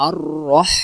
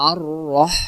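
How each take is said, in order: No difference in how they are said.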